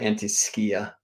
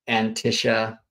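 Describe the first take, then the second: First: The word has a more Greek-style pronunciation. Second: The word has an anglicized, less Greek pronunciation.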